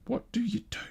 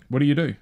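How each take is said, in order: First: Squeaked much higher and softer, helpless; high soft despair. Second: Said in the usual way. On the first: Real, not acted. Pondering world news, a high soft exasperated squeak. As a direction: let it rise to a small helpless squeak.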